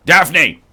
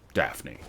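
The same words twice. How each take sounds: First: Louder, a sharp mock-angry call of "Daphne!"; angry Frasier. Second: Much lower and softer, a calm murmured "Daphne."; calm quiet Frasier. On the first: Streamer tests an angry Frasier Crane voice, loud and forceful. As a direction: snap the name like an irritated Frasier. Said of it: "Angry Fraser needs work". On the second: Acted. Streamer tries a calm Frasier Crane take, low and soft. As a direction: say the name gently, almost under the breath. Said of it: "quiet Fraser Crane is slightly better".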